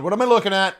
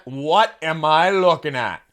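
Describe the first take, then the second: First: Baffled question. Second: Slower, drawn-out what am I looking at; slow puzzled repeat. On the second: Host staring at the octopus singer, slowly drawn out. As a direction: stretch it out in disbelief. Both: Pretend.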